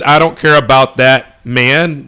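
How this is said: There is a pause within the sentence.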